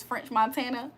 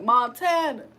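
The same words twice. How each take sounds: First: Said in the usual way. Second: Lightly imitated rapper saying his own name; French Montana. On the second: Streamer joking about a French singer, mimicking his name drop. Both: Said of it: "He be like".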